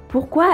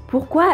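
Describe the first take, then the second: Both takes have the same delivery.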